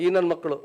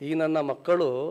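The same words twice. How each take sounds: First: The phrase is said quickly and run together. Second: The phrase is said slowly and carefully. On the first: It sounds like a local slang expression. "ಅದೇ ಸ್ಪೀಡಾಗಿ ಹೇಳಿದ್ರೆ local language" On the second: It plainly means these children of mine. "ಅದು ಕರೆಕ್ಟಾಗಿದೆ, ಸ್ಲೋಗಿ ಹೇಳಿದ್ರೆ"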